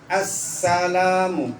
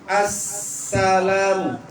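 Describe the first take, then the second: The two takes are said the same way.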